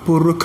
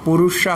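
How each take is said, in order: First: The last consonant is a 'kh' sound. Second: The last consonant is an 'sh' sound. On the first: "പുരുഖ എന്ന് പറയും" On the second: "പുരുഷ എന്നുള്ള സ്ഥലത്ത്"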